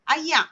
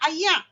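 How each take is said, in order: First: It is said in Kedah dialect, ending in a throat sound. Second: The same.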